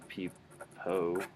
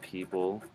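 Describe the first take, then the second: First: The word ends with an O-like vowel sound. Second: The word ends with a dark L sound. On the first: The speaker calls it wrong. "You wouldn't say peepo" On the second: The speaker calls it right. "so like people"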